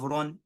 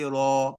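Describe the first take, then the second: First: The syllable ends with an n sound. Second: The syllable ends on an open vowel. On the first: The word is read without stopping on it. The speaker calls it wrong. "Instead of run" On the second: The reader stops on the word. The speaker calls it right. "you say Ra"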